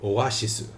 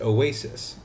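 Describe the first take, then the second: First: It has a shi sound and ends with su. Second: It has a plain s sound and ends on s. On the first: The speaker calls it right. "It's oas oashisu. There's also no C" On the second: The speaker calls it wrong. "I pronounce it oasis"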